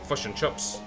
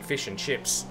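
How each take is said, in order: First: It is said in a New Zealand accent. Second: It is said in an Australian accent.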